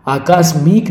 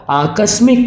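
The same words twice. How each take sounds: First: आकस्मिक slow, with long kaa and mee; wrong pronunciation. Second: आकस्मिक with short ka and mi, higher; correct pronunciation. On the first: Teacher rejecting the error, आकस्मिक stretched to "aakaasmeek". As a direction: say आकस्मिक as "aa-kaas-meek". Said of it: "आकस्मिक नहीं". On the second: Teacher giving the answer, आकस्मिक with short vowels. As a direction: say आकस्मिक as "aa-kas-mik". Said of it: "क्या होगा, आकस्मिक". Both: Shown as a demonstration.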